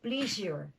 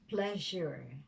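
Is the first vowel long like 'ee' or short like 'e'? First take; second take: long ee; short e. First: The first vowel is a long 'ee' sound. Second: The first vowel is a short 'e' sound. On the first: The speaker calls it wrong. "because you say please, pleasing, you are likely to say pleasure" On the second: The speaker calls it right. "when it should be pleasure"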